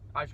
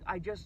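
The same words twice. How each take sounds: First: The pitch stays level and the voice sounds assured. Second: The pitch rises and the voice sounds unsure. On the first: The speaker feels entitled to approach. The speaker calls it right. "that was alpha" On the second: The speaker feels they are imposing on the other person. The speaker calls it wrong. "even the tonality went up"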